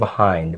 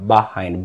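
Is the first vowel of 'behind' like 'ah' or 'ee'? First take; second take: ah; ah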